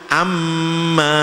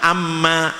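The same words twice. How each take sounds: First: The nasal hum on the m is held long. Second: The nasal hum on the m is cut short. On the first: The speaker calls it right. "bacaannya harus ditahan dulu" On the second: The speaker calls it wrong. "itu namanya korupsi dengung"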